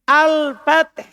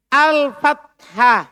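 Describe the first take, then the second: First: "al-fath" loud and high, closed without -ah. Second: "Al-fathah" loud, high, very slow, ending on -hah. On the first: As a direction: end "al-fath" on consonants, no final vowel. (ucapkan "al-fath" keras, tanpa akhiran ta) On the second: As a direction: spell out each syllable of "Al-fathah" loudly. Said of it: "Pakai ta kan". (ucapkan "Al-fathah" keras dan pelan, akhiran -hah jelas) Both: Shown as a demonstration.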